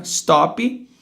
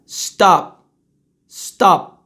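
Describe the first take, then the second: First: "stop" lifted into "stoppy"; Brazilian pronunciation. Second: "stop" shut on the p; true English pronunciation. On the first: Teacher as a Brazilian, "stop" with added vowel. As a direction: finish "stop" on an extra i. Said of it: "Brasileiro, né?". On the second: Teacher saying how you will say it, "stop" unreleased. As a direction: stop the air at the p of "stop". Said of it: "não deixo o ar passar". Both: Shown as a demonstration.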